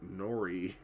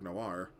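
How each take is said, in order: First: It is said as two syllables, like 'nori'. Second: It is said as one syllable, like 'nwar'. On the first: The speaker calls it wrong. "pronounce that boy N- Nori or something like that for many years" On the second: The speaker calls it right. "how to pronounce the word noir"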